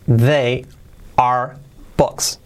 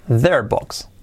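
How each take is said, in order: First: Word-by-word with long gaps; slow, isolated words for learners; slow model. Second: Quick, contracted and run together; brisk natural-speed model; said fast. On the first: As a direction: dictate each word separately. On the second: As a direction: say it as one fluent chunk. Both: Shown as a demonstration. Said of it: "Dicho rápido".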